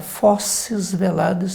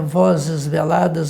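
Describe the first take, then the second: First: The first word begins with a voiceless f sound. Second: The first word begins with a voiced v sound. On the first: The speaker calls it wrong. "há pessoas que falam assim" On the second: The speaker calls it right. "um é sonoro"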